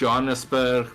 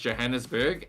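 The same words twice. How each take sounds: First: It is pronounced the Afrikaans way. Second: It is pronounced the English way.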